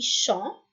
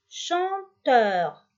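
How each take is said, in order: First: "chanteur" as chan, long pause, teur; "chanteur" with a wide gap between syllables; split into syllables. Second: Said in the usual way. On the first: Shown as a demonstration. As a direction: break "chanteur" in two for a class. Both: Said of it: "on va couper en syllabes".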